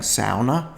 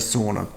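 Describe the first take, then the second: First: It is said the Northern European way. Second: It is said the Australian way. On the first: "I won't be saying sauna as you would like me to" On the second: "we're in Australia and that's the way we pronounce stuff"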